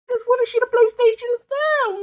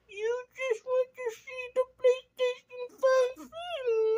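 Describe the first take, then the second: First: It is said at normal speed. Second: It is said much more slowly.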